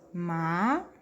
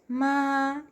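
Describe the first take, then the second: First: It is said with the second Mandarin tone. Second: It is said with the first Mandarin tone. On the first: "Segundo tom" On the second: "Primeiro tom"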